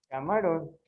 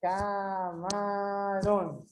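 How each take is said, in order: First: Said in the usual way. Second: "Camarão" held out slowly on each syllable; very slow, evenly stretched ca... ma... rão for "Camarão"; separated into syllables. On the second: Shown as a demonstration. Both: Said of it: "separar em sílabos".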